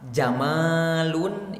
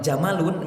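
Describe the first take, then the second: First: The vowel after the m is long. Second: The vowel after the m is short. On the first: It means beautiful. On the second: It means camel.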